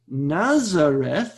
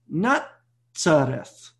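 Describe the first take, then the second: First: The middle consonant is a plain z sound. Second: The middle consonant is a ts sound. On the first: The speaker calls it wrong. "you're going to see it doesn't say Nazareth" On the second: The speaker calls it right. "It says Nazareth. That's the root. It's written with a Tzade"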